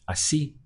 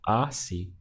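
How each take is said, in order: First: The stress is on the last syllable. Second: The stress is on the first syllable. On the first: The speaker calls it right. "the correct pronunciation is así" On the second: The speaker calls it wrong. "I'm stressing the one before last"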